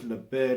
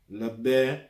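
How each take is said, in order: First: The title is said in a casual pronunciation. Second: The title is said in a careful pronunciation. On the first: The speaker calls it wrong. "I believe it's Le Bear" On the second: The speaker calls it right. "if I was to pronounce it properly"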